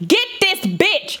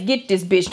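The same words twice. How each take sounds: First: Higher, slow, stretched-out demand; pointed demand. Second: Said in the usual way. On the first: Retold or imitated. Telling the silent mother to get her child, slow and higher. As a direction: spell it out to the mother. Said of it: "tapped little non-speaking motherfucking mama". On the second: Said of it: "Anybody understands".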